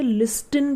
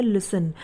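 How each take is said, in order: First: "लिस्टन" with an audible t; T pronounced. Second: "लिसन" with no t sound after the s; silent T. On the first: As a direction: say "लिस्टन", sounding the t after the s. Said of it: "ये silent रहता है". ("लिस्टन" में ट का उच्चारण करते हुए) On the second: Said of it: "इसे लिसन पढ़ा जाता है". ("लिसन" में ट साइलेंट, बिना ट के) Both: Shown as a demonstration.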